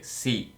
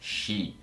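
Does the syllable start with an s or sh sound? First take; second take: s; sh. First: The syllable starts with a plain s sound. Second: The syllable starts with an sh sound. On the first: "S mais I deveria ser Si" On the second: "mas aqui o som é Shi"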